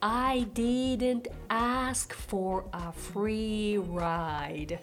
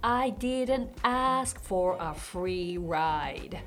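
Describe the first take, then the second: First: It is said at a slower pace. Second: It is said at a faster pace.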